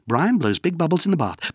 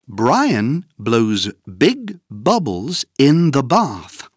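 First: It is said very fast. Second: It is said at a slow, normal pace.

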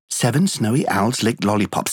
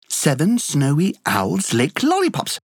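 First: It is said very fast, at top speed. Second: It is said faster than the first time.

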